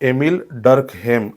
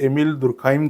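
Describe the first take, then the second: First: The surname ends in a 'hem' sound. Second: The surname ends in a 'khaim' sound. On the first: The speaker calls it right. "Correct उच्चार हा एमिल डर्कहेम असा आहे" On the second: The speaker calls it wrong. "बऱ्याचदा मुलं एमिल दुर्खाइम कर असं म्हणतात"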